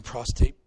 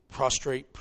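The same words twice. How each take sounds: First: "prostate" said by mistake for prostrate; misspoken prostate. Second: "prostrate" said carefully with the r after the t; corrected prostrate. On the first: Pastor slips on the word in his sermon, saying "prostate". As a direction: slip into "prostate" before the correction. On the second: Pastor corrects himself to the congregation with "prostrate". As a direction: fix the slip and land "prostrate" firmly. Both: Real, not acted.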